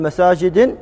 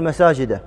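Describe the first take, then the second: First: مساجد ending on a short i, masājidi; teacher warns against saying مساجد with a kasra; wrong kasra ending. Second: مساجد ending on a short a, masājida; teacher gives the correct مساجد with a fatha. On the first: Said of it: "لا تقول مساجد". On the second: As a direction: say مساجد with a final fatha, no nunation. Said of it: "تقول مساجد". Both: Shown as a demonstration.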